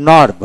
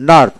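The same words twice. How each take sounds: The two takes are said the same way.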